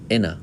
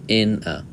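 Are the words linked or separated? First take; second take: linked; separated. First: The words in and a run together. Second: The words in and a are said separately. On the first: The speaker calls it right. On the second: The speaker calls it wrong.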